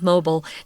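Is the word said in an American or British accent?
American. It is said in an American accent. "the American pronunciation of mobile"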